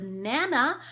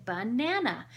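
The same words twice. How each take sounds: First: "Nana" for banana, first syllable dropped; toddler mispronunciation. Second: "Banana" said in full with its first syllable; correcting pronunciation. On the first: Retold or imitated. Child trying to say banana, lightly imitated baby word. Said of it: "when the child says". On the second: Shown as a demonstration. Parent correcting a child's word, "Banana" pronounced in full. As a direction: model all three syllables of "Banana". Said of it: "we giggle and we correct them".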